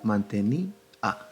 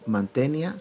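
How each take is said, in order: First: The final i and a form separate syllables. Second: The final i and a join in one syllable. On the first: The speaker calls it right. "sino mantení A, es decir, se separa la emisión de voz" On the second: The speaker calls it wrong. "no se lee mantenia"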